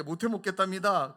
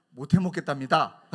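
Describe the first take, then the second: First: Loud teasing report; tattling. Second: Loud laughing snitch; tattling with a laugh. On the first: Pastor repeating friend's complaint to elder, loud tease. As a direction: tell on him loudly. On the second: Pastor snitching on friend to elder, laughing. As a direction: tell on him, laughing. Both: Retold or imitated. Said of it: "꼬질렀어요".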